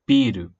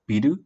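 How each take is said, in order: First: The first syllable is held long. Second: The first syllable is short, not held. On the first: It means beer. "if you hold the first accent or, or the first syllable" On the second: It means building or bill. "if you do not hold the sound on the first syllable"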